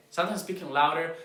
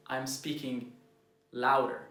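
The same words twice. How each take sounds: First: Pushed up, louder than the rest; a coach showing loud delivery; louder demo. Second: Said in the usual way. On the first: Shown as a demonstration. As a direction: lean into it with more volume.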